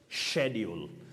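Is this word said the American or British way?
British. The word has the British pronunciation. "But British"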